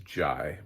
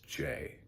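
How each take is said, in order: First: The name rhymes with 'eye'. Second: The name rhymes with 'day'. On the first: This is how the speaker always thought it was said. The speaker calls it wrong. "I always thought it was Jai" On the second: This is how many people say it now. The speaker calls it right. "I think it's Jay"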